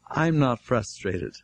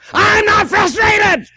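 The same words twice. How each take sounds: First: It is said calmly and plainly. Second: It is said in a frustrated, agitated tone.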